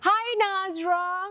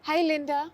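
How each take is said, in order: First: It is said in a higher voice. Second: It is said in a lower voice.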